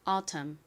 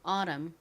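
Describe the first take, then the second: First: The t is a crisp, clear t sound. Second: The t is flapped like a quick r.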